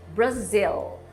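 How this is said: It is pronounced the English way. "em inglês Brazil"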